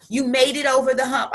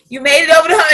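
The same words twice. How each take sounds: First: Said in the usual way. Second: Repeated louder with force; pushed harder the second time. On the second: Shown as a demonstration. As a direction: say it again, louder, for emphasis.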